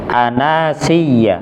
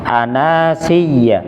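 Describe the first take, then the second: Both takes have the same delivery.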